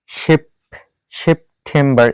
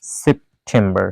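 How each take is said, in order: First: সেপ্টেম্বর with the P softened towards ফ; সেপ্টেম্বর as a mistaken "sheph-tembar"; wrong aspirated P. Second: সেপ্টেম্বর slowly, with a plain প closing the first syllable; low, slow সেপ্টেম্বর, no puff on the P; unaspirated P. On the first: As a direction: break after সেপ and puff the P like ফ. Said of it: "এভাবে বলতে পারি না". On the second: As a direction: say সেপ্টেম্বর as "sep... tembar", P kept as প. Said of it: "এখানে আমাদের বলতে হচ্ছে". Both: Shown as a demonstration.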